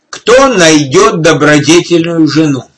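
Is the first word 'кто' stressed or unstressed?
unstressed. The word кто carries no special stress.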